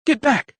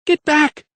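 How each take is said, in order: First: High, sharp shout. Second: Very high, loud scream. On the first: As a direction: bark the command at him. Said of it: "shouted Lydia". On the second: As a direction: scream it with all she has. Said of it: "she screamed once more". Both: A narrator's reading.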